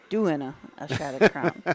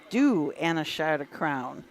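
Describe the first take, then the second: First: The start is one word, 'doing'. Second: The start is two words, 'do and'. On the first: The speaker calls it wrong. "not doing a" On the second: The speaker calls it right. "It is Do and a Shot of Crown"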